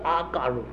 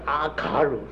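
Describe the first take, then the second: First: The middle syllable is said as ga. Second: The middle syllable is said as ka. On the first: The speaker calls it wrong. "不是阿嘎鲁" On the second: The speaker calls it right. "是阿卡鲁，是嘎卡嘎嘎的卡"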